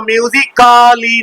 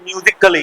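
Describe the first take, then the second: First: Musically drawn out with a long KAA, "myoo-zi-KAA-lee"; wrong MUSICALLY. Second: Musically with the "a" squeezed out, "myoo-zik-lee"; correct MUSICALLY. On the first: Teacher showing students the mistake, musically with a sounded long "kaa". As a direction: say musically slowly with a full "kaa" before "lee". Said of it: "तो musically नहीं है". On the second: Teacher giving students the right form, musically as "myoozik-lee". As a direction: say musically lower, "kaa" reduced to a quick "k'lee". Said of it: "ये musically है". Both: Shown as a demonstration.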